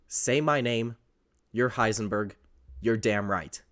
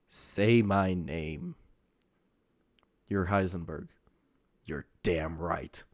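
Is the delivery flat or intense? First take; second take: flat; intense. First: It is read plainly with little energy. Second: It is acted with dramatic, intense energy. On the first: "that doesn't sound very interesting" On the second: "when they start acting, you get this"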